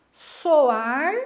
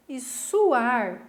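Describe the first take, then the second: First: "Soar" said loud, with a clear O; careful enunciation. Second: "suar" with a clear U; careful enunciation. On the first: Teacher giving students a paronym, careful enunciation of "Soar" with O. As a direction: sound the O in "Soar" distinctly. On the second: Teacher contrasting the second paronym, careful enunciation of "suar" with U. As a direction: sound the U in "suar" distinctly. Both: Shown as a demonstration. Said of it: "a pronúncia da palavra é muito parecida".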